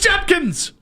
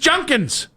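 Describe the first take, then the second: First: The middle consonant is a d sound. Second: The middle consonant is an n sound. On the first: The speaker calls it right. "No, it's Judkins" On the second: The speaker calls it wrong. "Did they do the Junkins thing?"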